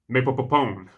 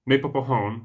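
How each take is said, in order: First: The last syllable starts with a P sound. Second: The last syllable starts with an H sound. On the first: The speaker calls it wrong. "Reg says it. Maypopopone with a P at the end rather than a H" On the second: The speaker calls it right. "Rico says it. Maypopahone with a H"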